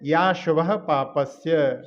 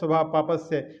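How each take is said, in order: First: The 'a' is joined on and stressed: 'ashubha'. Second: The initial 'a' is lost, so it sounds 'shubha'. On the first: Inauspicious activity brings in demerit. The speaker calls it right. "या शुभा इस पर जो है मिला करके जोर देना है" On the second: It sounds as if both halves speak of auspicious activity. The speaker calls it wrong. "दोनों में शुभ शुभ का ही जैसा लगता है"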